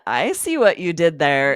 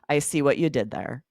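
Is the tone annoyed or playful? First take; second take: playful; annoyed. First: The tone is light, playful and upbeat. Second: The tone is flat, annoyed and angry. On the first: The speaker is joking along. The speaker calls it right. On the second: The speaker is irritated. The speaker calls it wrong.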